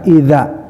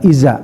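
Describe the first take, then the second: First: The consonant is a th-like sound. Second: The consonant is a plain z sound. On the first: The speaker calls it right. "Awalnya ada idza" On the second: The speaker calls it wrong. "bukan iza"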